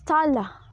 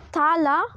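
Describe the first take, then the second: First: The first vowel is a fronted 'a'. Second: The first vowel is a low back 'ah'. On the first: This is the pronunciation after the vowel shift. "fronts and become more of a long A" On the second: This is the older Middle English pronunciation. "long A"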